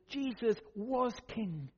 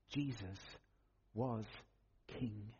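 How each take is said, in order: First: Slow, firm "Jesus was king"; emphatic proclamation. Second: Low, soft, a pause after each word; hushed solemn statement. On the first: Preacher proclaims his central point. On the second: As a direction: let each word drop quietly and separately. Solemn repeat closing the point. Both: Real, not acted.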